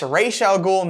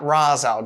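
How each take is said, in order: First: The first word does not sound like Roz. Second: The first word sounds like Roz. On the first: The speaker calls it right. "it's pronounced Ra's al Ghul" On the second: The speaker calls it wrong. "not Ra's al Ghul"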